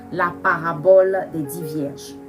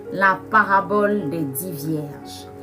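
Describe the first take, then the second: The two takes are said the same way.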